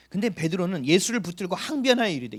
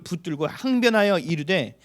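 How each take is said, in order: First: Said in the usual way. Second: Slow, loud scripture line with weight on 항변하여; solemn reading. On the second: Acted. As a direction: read 항변하여 slowly and firmly. Reads scripture slowly.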